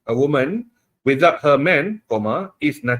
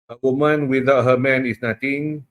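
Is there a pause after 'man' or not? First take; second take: pause; no pause. First: There is a break after 'man'. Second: It is read straight through without a pause.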